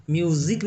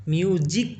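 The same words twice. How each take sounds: First: Z instead of ज in म्यूजिक; म्यूजिक pronounced "myoo-zik"; the rejected pronunciation. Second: A clear Hindi ज in the middle of म्यूजिक; म्यूजिक pronounced "myoo-jik". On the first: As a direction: say म्यूजिक with a buzzing z, myu-zik. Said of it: "म्यूजिक नहीं पढ़ते". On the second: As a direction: say म्यूजिक with a j sound, myu-jik. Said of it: "ज की तरह हो रहा है". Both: Shown as a demonstration.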